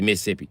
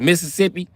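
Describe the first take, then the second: First: It is said in a local Mississippi accent. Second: It is said in the speaker's usual outsider accent. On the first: The speaker calls it right. "but they say Mississippi" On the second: The speaker calls it wrong. "I thought it was Mississippi"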